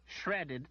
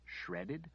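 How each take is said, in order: First: Said in the usual way. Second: Softer, barely voiced incredulous "Shredded?"; just mouth "Shredded?" in disbelief; the healer mouthing "Shredded?" in disbelief. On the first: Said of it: "mouthed, "Shredded?". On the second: A narrator's reading. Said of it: "she incredulously mouthed".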